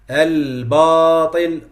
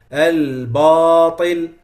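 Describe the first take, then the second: First: The b sound is heavy and thick. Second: The b sound is heavy and thick.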